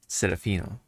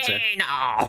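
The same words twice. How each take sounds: First: It is said plainly, in a normal voice. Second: It is said like a dramatic announcer.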